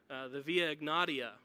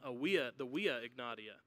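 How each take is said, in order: First: The name is pronounced the usual English way. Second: The name is pronounced with classical Latin sounds.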